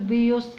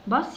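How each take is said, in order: First: The vowel is a yoo sound. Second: The vowel is a short uh sound. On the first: The speaker calls it wrong. "مش هنقول بيوس" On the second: The speaker calls it right. "هي نطقها بهذا الشكل"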